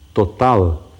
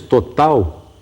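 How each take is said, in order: First: The final sound is a clear L. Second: The final sound is a U-like glide. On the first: This is the older pronunciation. "e não mais total" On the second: This is the current pronunciation. "Dizemos total"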